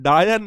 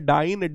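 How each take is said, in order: First: It is said as two syllables, daa-yan. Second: It is said as one syllable, dyne. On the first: The speaker calls it wrong. "डायन नहीं है देवी जी" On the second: The speaker calls it right. "डाइन है"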